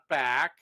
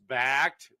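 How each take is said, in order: First: The word ends without the t sound. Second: The word ends with a clear t sound. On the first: The speaker calls it wrong. "not back" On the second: The speaker calls it right. "It's backed"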